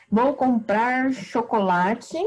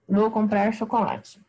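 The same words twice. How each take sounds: First: Slow, deliberate dictation with a rising end; slow teacher example. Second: Said in the usual way. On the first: Shown as a demonstration. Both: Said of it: "Por exemplo".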